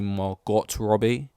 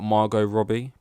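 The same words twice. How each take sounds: First: The first name ends with a clear t sound. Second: The first name ends without a t sound. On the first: The speaker calls it wrong. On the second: The speaker calls it right.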